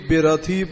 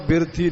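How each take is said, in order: First: The first vowel is a long 'e' sound. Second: The first vowel is a short 'i' sound. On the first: The speaker calls it right. "ਇੱਥੇ ਰਥੀ ਬੇਰਥੀ ਪਾਠ ਪੜਨਾ" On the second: The speaker calls it wrong. "ਬਿਰਥੀ ਨਹੀਂ ਪੜਨਾ"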